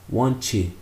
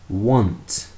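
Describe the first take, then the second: First: The t becomes ch, followed by an extra vowel. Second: The word ends cleanly on the t sound. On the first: The speaker calls it wrong. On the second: The speaker calls it right. "Finish with the T sound"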